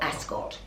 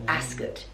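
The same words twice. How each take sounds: First: The stress is on the second syllable. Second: The stress is on the first syllable. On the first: The speaker calls it wrong. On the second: The speaker calls it right. "Emphasis on the first syllable"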